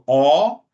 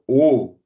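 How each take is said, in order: First: The vowel is pronounced open. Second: The vowel is pronounced closed.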